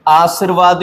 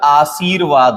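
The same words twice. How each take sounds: First: आशीर्वाद clipped to 'aas-ir-vaad'; wrong short vowel. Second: आशीर्वाद as 'aa-seer-vaad'; correct long vowel. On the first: Teacher rejects a common error, आशीर्वाद with short i. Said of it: "नहीं होता". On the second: Teacher gives the correction, आशीर्वाद with long ee. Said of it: "होता है". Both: Shown as a demonstration.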